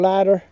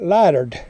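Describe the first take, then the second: First: The word ends without a D sound. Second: The word ends with an added D sound. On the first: This is the standard name. "This is called lighter" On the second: This is how people in the South say it. "we call it in the South, we call it lightered. We add a D to it"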